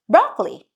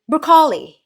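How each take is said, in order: First: It is said with a Western pronunciation. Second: It is said with a Filipino pronunciation. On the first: "You call it" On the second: "We call it"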